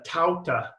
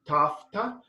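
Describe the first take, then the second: First: The middle sound is a vowel U glide. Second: The middle consonant is an F sound. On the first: This is the Erasmian pronunciation. "in uh, Erasmian, uh, I believe it's a uh" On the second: This is the modern Greek pronunciation. "in modern, it would be tafta with like a F"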